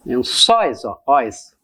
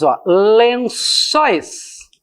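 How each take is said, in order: First: Lençóis said low, then ó, óis split apart; breaking down the word. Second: Lençóis drawn out slowly with open óis; open diphthong demo. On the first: Teacher splitting the word for students. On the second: Teacher demonstrating the open sound to the class. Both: Shown as a demonstration.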